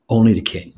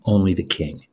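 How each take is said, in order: First: Only the king, with only pushed a bit louder; stress on only. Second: Said in the usual way. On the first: Acted. Wise man insists to queen, stress on only. Repeats the key phrase.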